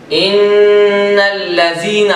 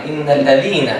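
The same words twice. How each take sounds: First: ان الذین said very slowly and louder with a z sound; deliberately mistaken recitation of ان الذین with z; wrong pronunciation. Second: Corrected recitation of ان الذین with dh; correct pronunciation. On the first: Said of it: "کتنی بڑی غلطی ہو گئی". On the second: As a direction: say الذین properly with dh, not z. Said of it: "وہاں پہ ذا ہے". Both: Shown as a demonstration.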